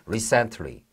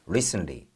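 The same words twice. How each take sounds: First: The word is said slowly and carefully. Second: The word is said quickly and reduced. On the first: "천천히 여러분이 발음을 하실 때는" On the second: "미국식 영어와 문장 속에서 조금 더 스피드 있게 발음이 될 때는"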